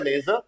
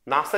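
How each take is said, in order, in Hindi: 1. पहला स्वर e जैसी umlaut ध्वनि है। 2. पहला स्वर सादा a की ध्वनि है। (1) "umlaut के" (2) "बिना umlaut"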